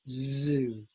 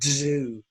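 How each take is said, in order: First: The word begins with a plain z sound. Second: The word begins with a dz sound. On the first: The speaker calls it right. "but it's zoo" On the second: The speaker calls it wrong. "My students often say D Z O"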